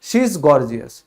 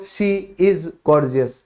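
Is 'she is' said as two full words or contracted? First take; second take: contracted; full. First: She is is run together as one word. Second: She is is said as two full words. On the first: The speaker calls it right. "Simply" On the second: The speaker calls it wrong. "कभी मत बोलो"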